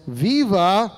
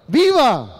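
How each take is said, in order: First: A mild mock call of the word, barely raised; just sketch the announcer's "Viva!" lightly; quick half-voiced demo of the cheer. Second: "Viva!" yelled out high and loud; a rally cry to get the room shouting. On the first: Shown as a demonstration. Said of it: "the announcer, yells". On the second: Real, not acted. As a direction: lead the crowd with a full-voiced "Viva!". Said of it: "I want you to yell it as loud as you can".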